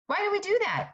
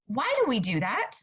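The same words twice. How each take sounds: First: Much higher, exasperated repeat of the question; pitched-up incredulous echo; emphatic repeat. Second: Said in the usual way. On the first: Real, not acted. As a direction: fling the question up high in disbelief. Repeats question, second more emphatic.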